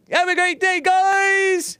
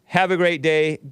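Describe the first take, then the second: First: Very high, loud squeaky sign-off; squeaky cartoon voice. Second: Said in the usual way. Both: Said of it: "Hake voice".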